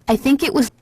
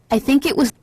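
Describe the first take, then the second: The two takes are said the same way.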